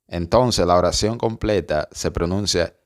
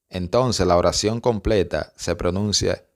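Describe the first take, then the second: No difference in how they are said.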